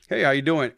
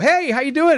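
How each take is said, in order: First: The greeting is quiet, flat and low in energy. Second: The greeting is loud and high in energy. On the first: It matches the other person's serious manner. The speaker calls it right. "you have to go in and mirror" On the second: It clashes with the other person's serious manner. The speaker calls it wrong. "I can't go, ... whoa, whoa, whoa. ... it's a disconnect"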